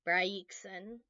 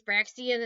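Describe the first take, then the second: First: The first syllable sounds like 'bry'. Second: The first syllable sounds like 'brax'. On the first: The speaker calls it right. "I'm going to go with Bryaxon" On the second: The speaker calls it wrong. "My first instinct was Braxian, and no, the I is before it"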